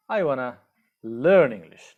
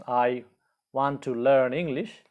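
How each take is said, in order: First: "wanna" merged into one word, no T; spoken short form. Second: "want to" as two full words, T sounded; long form. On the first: Teacher models spoken English for learners, contracted "wanna". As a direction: say "wanna", pause, then a loud falling finish. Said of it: "in spoken English we use". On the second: Teacher reads the long form for learners, careful full "want to". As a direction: say "want to" carefully, pausing after "I". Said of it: "the long form is". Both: Shown as a demonstration.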